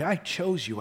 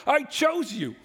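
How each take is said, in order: First: Level, gentle retelling; calm restatement. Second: Emphatic. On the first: Preacher restates God's choice, calmly. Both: Acted. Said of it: "God says".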